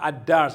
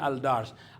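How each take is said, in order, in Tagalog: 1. Nagsasanib ang L sa tunog ng dobleng D. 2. Malinaw na L ang binibigkas bago ang D. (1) "ad-dars at hindi al-dars" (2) "hindi al-dars"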